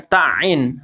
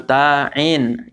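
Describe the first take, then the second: First: Ta'in with a short ta squeezed into doubled ain; wrong doubled ain. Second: Ta'in split into long ta, then ain; one syllable at a time. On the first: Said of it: "ainnya jadi tasdid". (ta'in salah dengan ain bertasdid) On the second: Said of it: "Satu-satu loh". (Ta'in dibaca satu-satu) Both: Shown as a demonstration.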